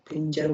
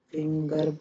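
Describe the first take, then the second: First: "फिंजर" with j in place of g; rule-following soft g. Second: "फिंगर" with a hard g; usual hard g. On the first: Teacher applying the spelling rule to finger, soft-g pronunciation. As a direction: say "फिंजर", g softened to j. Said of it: "फिंजर बोलना चाहिए". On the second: Teacher explaining an exception to students, hard-g pronunciation. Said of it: "पर बोलते नहीं". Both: Shown as a demonstration.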